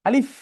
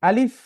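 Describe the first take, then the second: No difference in how they are said.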